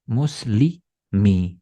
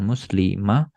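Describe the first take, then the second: First: The word ends with an i vowel. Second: The word ends with an a vowel. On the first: The speaker calls it right. "Itu pasti bacanya muslimi" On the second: The speaker calls it wrong. "bukan muslimah"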